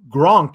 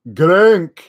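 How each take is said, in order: First: The vowel is a plain o sound. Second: The vowel is an umlaut ö sound. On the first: "his name wouldn't be Gronk anymore" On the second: "It'd be like Grunk"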